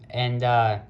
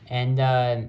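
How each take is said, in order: The two takes are said the same way.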